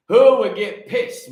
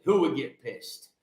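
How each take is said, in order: First: Louder and drawn out, rising; louder, slow challenge to the congregation; louder, slower. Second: Said in the usual way. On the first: Shown as a demonstration. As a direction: hurl the question at the crowd. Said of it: "repeated question, punched". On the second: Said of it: "repeated question, plain".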